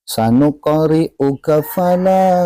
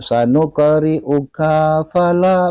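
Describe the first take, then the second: First: The 'ka' is short and runs into 'fala'. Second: The 'ka' is drawn out, apart from 'fala'. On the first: The speaker calls it right. "Ka pendek" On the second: The speaker calls it wrong. "Bukan seperti itu"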